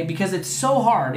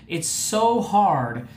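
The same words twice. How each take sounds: First: Said in the usual way. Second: "so hard" drawn out slowly; heavy emphasis on "so hard"; slow stressed so hard. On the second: Shown as a demonstration. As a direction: lean on "so hard", slowed right down.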